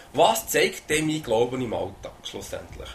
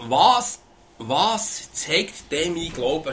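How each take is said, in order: First: Said in the usual way. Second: Each word drawn out slowly and heavily; "was zeigt denn mein Glauben" stretched out slowly, leaning on "was"; slow, weighty question. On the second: Shown as a demonstration. Preacher reads out his own written question, slow and weighty. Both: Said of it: "habe ich mir aufgeschrieben".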